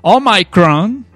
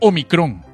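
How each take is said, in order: First: The word is said with an American English accent. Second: The word is said with Spanish vowels. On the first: The speaker calls it wrong. "es Omicron" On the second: The speaker calls it right. "No pueden decir Omicron"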